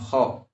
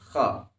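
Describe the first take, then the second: First: The vowel is rounded, with lips pushed forward. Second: The vowel is open, with lips not rounded. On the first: The speaker calls it wrong. "bukan kho" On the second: The speaker calls it right. "kha, bukan kho"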